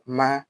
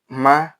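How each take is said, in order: First: The pitch stays level through the syllable. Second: The pitch rises through the syllable. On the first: "a straight tone" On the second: "the raising one"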